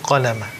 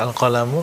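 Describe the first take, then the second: First: The word ends with a final 'a' vowel. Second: The word ends with a final 'u' vowel. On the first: The pen is the object of creating. The speaker calls it right. "membacanya awwala ma khalaqallahu al-qalama" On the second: The pen is the subject, changing the meaning. The speaker calls it wrong. "Jadi bukan uh, dibaca al-qalamu, karena beda uh, artinya"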